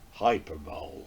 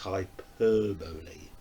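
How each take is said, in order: First: It is said in a put-on American accent. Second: It is said in a plain British accent. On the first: The speaker calls it wrong. "It's the only way I can make that kind of American kind of voice" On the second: The speaker calls it right. "Its correct pronunciation is"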